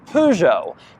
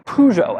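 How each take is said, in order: First: It is said with a British pronunciation. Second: It is said with an American pronunciation. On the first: "British people say Peugeot" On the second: "I say Peugeot, as most Americans do"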